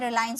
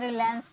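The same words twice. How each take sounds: First: The stressed vowel sounds like 'eye'. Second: The stressed vowel does not sound like 'eye'. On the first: The speaker calls it right. "इसे रिलायंस बोला जाता है, इसे आइंस में pronounce किए" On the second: The speaker calls it wrong. "रिलायंस नहीं"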